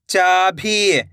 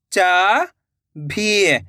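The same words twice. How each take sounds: First: Said in the usual way. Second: "चाभी" split into two long syllables. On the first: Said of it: "तो मिलके बन जाएगा". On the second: Shown as a demonstration. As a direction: draw out चा, pause, then भी in "चाभी". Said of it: "एक एक अक्षर का उच्चारण". ("चाभी" को तोड़कर, चा... भी)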